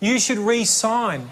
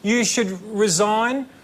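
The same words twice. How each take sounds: First: It is said as 'ree-sign' with an s sound. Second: It is said as 'rih-zine' with a z sound. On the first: The person should sign on again. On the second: The person should quit the job.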